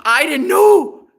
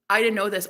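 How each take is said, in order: First: High, loud wail through laughter; loud, drawn-out amused denial; laughing protest. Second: Said in the usual way. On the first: Real, not acted. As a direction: stretch it out as a laughing plea.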